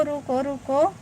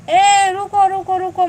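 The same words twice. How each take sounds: First: Said in the usual way. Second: Loud urgent call, ruko ruko; loud, pleading call to a departing viewer. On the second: Real, not acted. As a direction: shout रुको to stop someone leaving. Calling after viewer leaving live.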